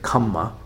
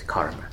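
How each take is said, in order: First: The word has a double m and no r. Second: The word has an r sound before the m. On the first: This is the Pali form of the word. "in the Pali pronunciation is kamma" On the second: This is the Sanskrit form of the word. "in Sanskrit is karma"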